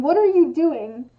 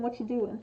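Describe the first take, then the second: First: Loud demo of an angry question; accusing. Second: Softer, blended casual question; easy, throwaway friendly query; casual interest. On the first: Explaining the tonal context of the question, accusing. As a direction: hit each word like a telling-off. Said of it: "almost implies, like, anger". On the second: Explaining the tonal context of the question, casually interested. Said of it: "implies that someone is interested". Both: Shown as a demonstration.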